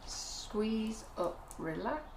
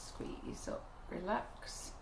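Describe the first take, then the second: First: Said in the usual way. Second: Soft whisper, almost unvoiced. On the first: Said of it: "demonstrating piping rhythm". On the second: Shown as a demonstration. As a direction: breathe the words like a secret. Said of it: "repeats instruction softly".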